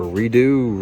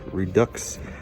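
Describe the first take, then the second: First: The word ends without any x sound. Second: The word ends with a clear x sound.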